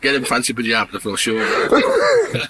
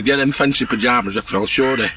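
First: Laughing through punchline. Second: Said in the usual way. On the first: Real, not acted. Farmer repeating his punchline to the walker, laughing.

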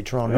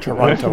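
First: Toronto said like "Tronno", the second t dropped; local Toronto. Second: Said in the usual way. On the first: Shown as a demonstration. To the host, Toronto as a local says it. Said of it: "I respect how you say Toronto". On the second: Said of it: "not Toronto".

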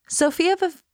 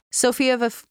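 First: "Sophia of" sung high, sinking sadly; sad droop. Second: Said in the usual way. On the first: Shown as a demonstration. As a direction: let the voice lose the will to live. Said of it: "that sound is so sad". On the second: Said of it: "Say again".

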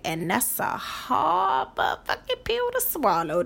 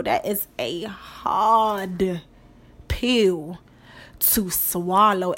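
First: Said in the usual way. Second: Each word laid down slowly and heavily, "hard", "pill", "to swallow" spaced apart with pauses; slow stressed repeat. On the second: Shown as a demonstration.

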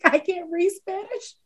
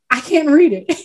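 First: Softer, slower, laughing through "I can't read Spanish"; giggly confession. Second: Said in the usual way. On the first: Retold or imitated. Retelling being high at Whataburger to the lady, giggling softly. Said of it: "I was like". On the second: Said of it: "staring at the menu like".

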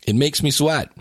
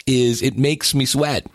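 First: "sweat" punched as the key word; "It makes me sweat" with the peak on "sweat"; stress on sweat. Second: Slow, leaning on "makes"; drawn-out "is it makes me sweat" with weight on "makes"; stress on makes. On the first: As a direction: land hard on "sweat". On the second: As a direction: hit "makes", let "sweat" fall. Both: Shown as a demonstration.

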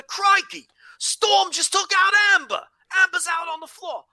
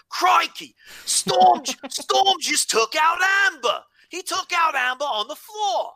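First: Hammed-up Australian commentator, much higher and louder; crikey-first Australian commentator, yelled out; Australian accent. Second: Hammed-up Australian commentator, much higher and louder; Aussie commentator shouting the big spot; Australian accent. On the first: Host redoes the call in an Australian accent with crikey first. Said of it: "if you're ever gonna do an Australian accent". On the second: Podcast host mimics the Australian commentator's call in an Australian accent. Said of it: "How's that for an Australian accent?".

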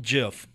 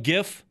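First: "gif" said like jif, with a J sound; soft G. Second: "gif" with a hard G as in go. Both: Shown as a demonstration. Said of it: "A gif or a gif?".

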